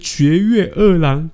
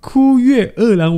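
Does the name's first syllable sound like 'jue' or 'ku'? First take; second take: jue; ku. First: The first syllable is pronounced 'jue'. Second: The first syllable is pronounced 'ku'. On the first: The speaker calls it wrong. "我念成绝月二郎" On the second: The speaker calls it right. "人家是枯月二郎"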